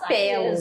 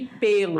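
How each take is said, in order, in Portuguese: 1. A vogal tônica é um e aberto. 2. A vogal tônica é um e fechado. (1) "Nada de falar pelos" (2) "é fechado"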